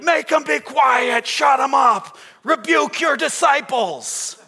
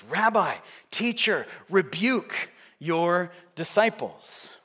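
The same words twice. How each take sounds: First: Slow, high, full-force shouted order; Pulitzer shouting. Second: A mildly insistent rebuke, word by word; measured demand. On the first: Newspaper king ordering the strikers silenced, hammed-up shout. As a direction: bellow each command to silence them. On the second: Pharisees telling Jesus to manage his followers, mildly insistent. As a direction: press the demand slowly at the end. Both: Acted.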